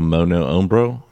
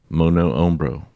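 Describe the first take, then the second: First: It is said in a laid-back Californian accent. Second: It is said in a plain, neutral accent.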